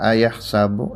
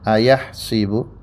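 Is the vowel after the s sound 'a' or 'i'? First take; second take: a; i. First: The vowel after the s is 'a'. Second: The vowel after the s is 'i'. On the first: "Yang pertama seperti biasa" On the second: "huruf sanya di kasrah"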